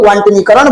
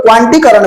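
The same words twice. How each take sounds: First: "क्वांटनीकरण" with a nee syllable before karan; variant with "नी". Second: "क्वांटीकरण" as kwaan-tee-karan; variant without "नी". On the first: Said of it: "कई लोग क्वांटनीकरण बोलता है". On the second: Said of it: "कई लोग क्वांटीकरण बोलता है". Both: Shown as a demonstration.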